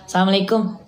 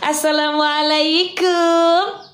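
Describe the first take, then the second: First: The greeting sounds firm and plain. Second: The greeting sounds soft and coy.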